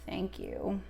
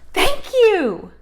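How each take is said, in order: First: It is said in a disgusted tone. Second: It is said in an excited tone.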